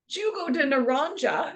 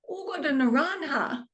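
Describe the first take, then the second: First: The first word begins with a hard j sound. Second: The first word begins with a soft h sound. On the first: The speaker calls it wrong. "even though I pronounced the J" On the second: The speaker calls it right. "the J's are H sounds"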